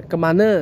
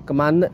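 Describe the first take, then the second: Both takes have the same delivery.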